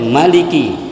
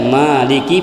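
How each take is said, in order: First: The first vowel is kept short. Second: The first vowel is held long. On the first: "tanpa mad" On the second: "panjang dengan mad tabi'i"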